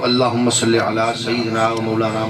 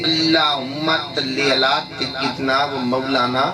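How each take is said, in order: First: The s sounds are pronounced clearly as s. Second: The s sounds are lisped and come out as t. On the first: "पढ़ना शुरू कर दिए सही ज़ुबान में" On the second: "तोतली जबान"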